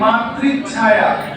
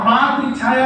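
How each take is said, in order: First: The middle 'ch' sound is doubled. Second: The middle 'ch' sound is single. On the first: The speaker calls it right. "बीच में च लाना है" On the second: The speaker calls it wrong. "नहीं"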